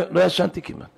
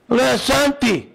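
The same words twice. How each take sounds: First: Said in the usual way. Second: "לא ישנתי" drawn out slowly on raised pitch; emphatic repeat. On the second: Real, not acted. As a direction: cry out "לא ישנתי", stretching it with distress. Emphatic repeat of own words.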